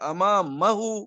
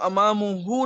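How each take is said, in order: First: The vowel before 'hu' is 'a'. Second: The vowel before 'hu' is 'u'. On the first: The speaker calls it right. "ये अब ये मंसूब हो गया" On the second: The speaker calls it wrong. "अमामुहू नहीं"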